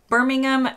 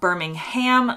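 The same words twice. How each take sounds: First: It is said the local British way. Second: It is said the way Americans say it. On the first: The speaker calls it right. "Birmingham in the U K is Birmingham" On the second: The speaker calls it wrong. "not Birmingham, like in the U S"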